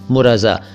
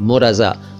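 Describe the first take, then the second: No difference in how they are said.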